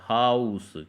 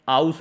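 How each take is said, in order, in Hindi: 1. शब्द 'h' ध्वनि से शुरू होता है। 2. शब्द स्वर से शुरू होता है, 'h' नहीं। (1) "ये हा से शुरू है" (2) "ये आउस नहीं है, आ से शुरू नहीं है"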